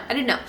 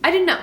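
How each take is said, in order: First: Said in the usual way. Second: "I didn't know" higher and louder, stress on "didn't"; emphatic. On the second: Shown as a demonstration. Reader stressing she never saw the twist coming, loud, "didn't" punched. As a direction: push "didn't" up hard and loud.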